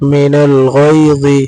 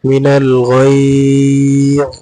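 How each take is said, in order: First: The phrase ends with its full vowel ending. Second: The phrase ends abruptly on a consonant. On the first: The reading continues without stopping here. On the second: The reading stops on this word.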